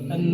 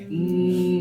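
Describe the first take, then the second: First: A short vowel is heard before the n. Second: The n is heard alone, with no vowel. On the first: The speaker calls it wrong. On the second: The speaker calls it right.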